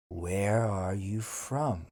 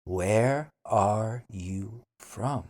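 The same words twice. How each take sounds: First: Said in the usual way. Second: Where are you from? slowly, Where stressed; slow careful Where are you from?; slow model. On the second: Shown as a demonstration. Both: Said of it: "then repeat slowly".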